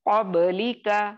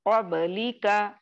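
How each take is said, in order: The two takes are said the same way.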